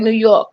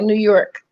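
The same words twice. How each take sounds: First: It is said in a strong New York accent. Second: It is said in a plain, neutral accent. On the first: "everybody that I know from New York has an accent. Even when they say New York, they say New York" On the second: "they never say like New York"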